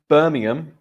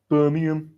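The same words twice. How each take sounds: First: Said in the usual way. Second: Put-on Birmingham accent; Peaky Blinders accent. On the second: Shown as a demonstration. Teacher imitating TV gangsters in a Birmingham accent. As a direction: say it in a thick Brummie accent. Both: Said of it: "that's my best Peaky Blinders accent".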